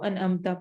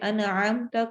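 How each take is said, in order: First: The middle consonant is a light glottal stop. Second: The middle consonant is a deep throat ain. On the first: The speaker calls it wrong. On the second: The speaker calls it right.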